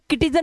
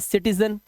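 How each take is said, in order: First: The word begins with a hard K sound. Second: The word begins with a soft S sound. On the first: The speaker calls it wrong. "अब इसे किटिजन नहीं पढ़ सकते" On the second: The speaker calls it right. "ये साई है सब। तो ये हो गया सिटीजन।"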